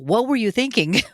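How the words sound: It is asked with a scolding, accusing tone.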